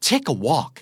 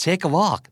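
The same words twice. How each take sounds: First: "Take a walk" as an exclamation, falling away; curt dismissal. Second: Said in the usual way. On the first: Shown as a demonstration. Teacher showing "Take a walk" used to send someone away, exclaimed dismissively. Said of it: "พูดด้วยน้ำเสียงประมาณนี้ มีเครื่องหมายตกใจอีกแล้ว". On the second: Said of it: "พูดด้วยน้ำเสียงประมาณนี้".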